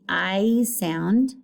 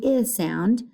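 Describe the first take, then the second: First: "I" said as the long vowel "eye"; long I sound. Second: "I" said as the short vowel "ih", as in lizard; short I sound. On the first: Teacher showing students the long vowel, "I" as "eye". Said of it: "not the I sound". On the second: Teacher contrasting for students, "I" as short "ih". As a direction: clip "I" to a short "ih". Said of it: "The I sound". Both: Shown as a demonstration.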